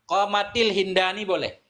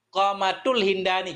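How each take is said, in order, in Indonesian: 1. Vokal i menyambungkan kedua kata. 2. Vokal u menyambungkan kedua kata. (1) "Kasrah boleh" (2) "dhammah boleh"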